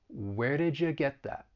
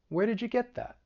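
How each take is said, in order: First: The sentence is said slowly. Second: The sentence is said at medium speed.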